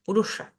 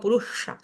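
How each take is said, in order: Both takes have the same delivery.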